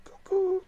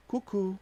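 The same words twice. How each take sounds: First: Squeaky cuckoo, way up high; high cuckoo call. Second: Said in the usual way. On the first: Pretend. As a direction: sing it like a cuckoo clock. Calling the people crazy.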